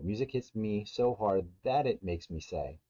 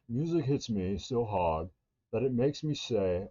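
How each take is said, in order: First: It is spoken in an American accent. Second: It is spoken in a British accent. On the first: "I'm American" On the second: "Or if you're British"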